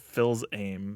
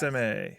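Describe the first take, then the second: First: The name is said with an 'l' sound. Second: The name is said without an 'l' sound. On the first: The speaker calls it wrong. "I've always read it as Phil's aim" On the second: The speaker calls it right. "So you're right"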